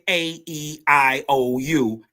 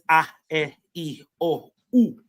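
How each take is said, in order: First: The vowels are said as ay, ee, eye, oh, you. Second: The vowels are said as ah, eh, ee, oh, oo. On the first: This is how they are said only in America. "only in America ... do you say" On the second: This is how the rest of the world says them. "Everybody else says"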